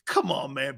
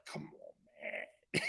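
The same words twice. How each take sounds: First: Said in the usual way. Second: Breathy, exasperated come on man; exasperated whisper. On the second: Retold or imitated. Host whispering his reaction to Mahomes's quote, exasperated. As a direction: whisper it like you can't believe it. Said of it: "I was like".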